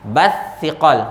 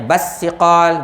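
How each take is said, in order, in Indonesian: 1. Konsonannya bunyi th. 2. Konsonannya bunyi s biasa. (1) "huruf huruf sa" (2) "bukannya basiqal, bunyi pun macam basikal"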